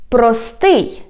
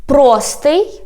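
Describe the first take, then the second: First: "простий" stressed on СТИЙ, falling; end-stressed "простий"; stress on last syllable. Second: "Простий" stressed on ПРО, rising end; front-stressed "Простий"; stress on first syllable. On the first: Teacher repeating for learners, "простий" stressed on СТИЙ. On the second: Teacher repeating for learners, "Простий" stressed on ПРО. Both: Shown as a demonstration. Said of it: "One more time".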